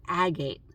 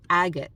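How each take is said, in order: First: "agate" with a long A at the end; first pronunciation. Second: "Agate" with a short, unstressed ending; corrected pronunciation. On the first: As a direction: say "agate" as AG-ayt, rhyming with gate. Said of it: "Agate. Yeah, agate beach". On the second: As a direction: say "Agate" as AG-it, clipping the last vowel. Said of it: "Yeah, agate beach". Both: Real, not acted.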